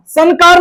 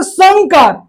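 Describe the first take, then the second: First: संकार as "san-kaar"; tongue-tip n in संकार; wrong n sound. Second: Slow "sangkaar" for संकार; nasal ng sound. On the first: Teacher shows the rejected form, संकार with plain n. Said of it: "संकार नहीं". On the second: Teacher applies the rule, संकार with ng. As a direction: back ng before का in संकार. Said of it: "क का अ होता है". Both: Shown as a demonstration.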